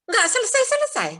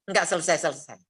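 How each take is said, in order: First: High, exasperated whine on "Nggak selesai-selesai"; fed-up high wail. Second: Said in the usual way. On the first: Retold or imitated. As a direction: squeal "Nggak selesai-selesai" high and louder in mock despair. Complaining about endless troubles.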